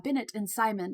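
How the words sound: The names are pronounced with English sounds. The speaker calls it wrong. "bastardize it to the English uh, version of it"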